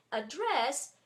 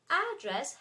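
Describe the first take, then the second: First: AdDRESS, the DRESS stressed and drawn out; stress on last syllable. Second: ADdress, the AD stressed; stress on first syllable. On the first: Teacher showing the verb, end stress on address. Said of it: "is stressed at the end". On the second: Teacher showing the noun for a place, stress on AD in address. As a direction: hit the beginning of address. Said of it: "has the accent in the beginning". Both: Shown as a demonstration.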